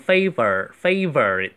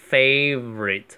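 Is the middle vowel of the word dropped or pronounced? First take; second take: pronounced; dropped. First: The middle vowel is fully pronounced. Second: The middle vowel is dropped. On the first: The speaker calls it wrong. "尽量不要读成favorite" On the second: The speaker calls it right. "一般都会省去favorite 就可以了"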